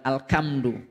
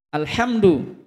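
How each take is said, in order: First: The middle consonant is a k sound. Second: The middle consonant is an h sound. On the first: The speaker calls it wrong. "bukan Alkamdu" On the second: The speaker calls it right. "Alhamdu bukan Alkamdu"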